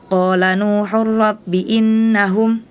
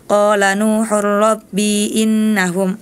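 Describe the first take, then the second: First: The vowel in 'rabbi' is held short. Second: The vowel in 'rabbi' is held long. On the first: The speaker calls it right. "Harusnya dibaca pendek" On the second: The speaker calls it wrong. "Tadi Hana dibaca panjang"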